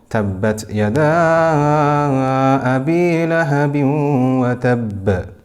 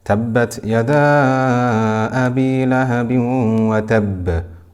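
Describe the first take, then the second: First: The vowel in 'yada' is held for five counts. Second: The vowel in 'yada' is held for four counts. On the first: "or five"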